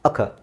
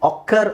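First: The first vowel is a weak schwa sound. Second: The first vowel is a full o sound. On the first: The speaker calls it right. "ಓಗೆ ನೋಡಿ ಅ sound, short ಅ" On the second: The speaker calls it wrong. "ಇದು ಅಕ್ಕರ್ ಅಲ್ಲ"

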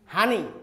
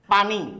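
First: It is said in Noakhali dialect, starting with h. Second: It is said in standard Bengali, starting with p.

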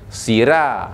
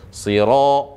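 First: The r is made thin and light. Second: The r is made moderately thick and dark. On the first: The speaker calls it wrong. "yang tak betulnya, sira. Ha, itu salah lah" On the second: The speaker calls it right. "Biasa saja. Siro, cukup"

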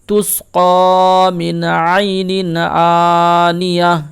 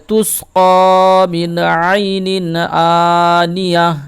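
The two takes are said the same way.

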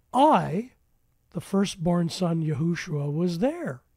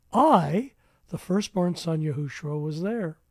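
No difference in how they are said.

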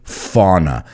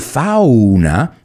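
First: Fauna is pronounced the English way. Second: Fauna is pronounced the Spanish way. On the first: The speaker calls it right. "we pronounce it a little bit different in English" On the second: The speaker calls it wrong. "We don't say fauna"

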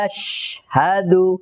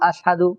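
First: The sh sound is held with continuous breath. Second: The sh sound is cut short without breath. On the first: The speaker calls it right. "শ্বাসের আওয়াজটাকে জারি রাখতে হবে" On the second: The speaker calls it wrong. "তাহলে সহি হবে না"

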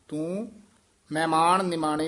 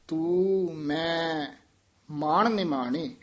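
First: The two words run together like 'mehmaan'. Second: Two distinct words, 'mai' and 'maan', are said. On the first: The speaker calls it wrong. "ਤੂੰ ਮਹਿਮਾਨ ਨਿਮਾਣੇ ਨਹੀਂ ਕਹਿਣਾ" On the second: The speaker calls it right. "ਤੂੰ ਮੈਂ ਮਾਣ ਨਿਮਾਣੇ, ਮਹਿਮਾਨ ਨਹੀਂ ਕਹਿ ਦੇਣਾ"

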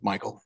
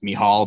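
First: The name is pronounced the American way. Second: The name is pronounced the Irish way. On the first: This is the usual everyday form. "Michael is the American way of saying the Irish Michael" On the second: This is the name's legal and original form. "in the bar, it's, it's Mihal"

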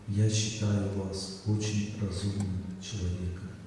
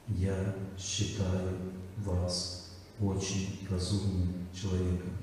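First: It is said warmly, directed at the listener. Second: Each word is said crisply but sounds detached. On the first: The focus is on the person being addressed. The speaker calls it right. "я смотрю на вас, кланяюсь вам в ноги и говорю" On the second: The focus is on the words, not the person. The speaker calls it wrong. "Я концентрируюсь очень четко на каждом слове"

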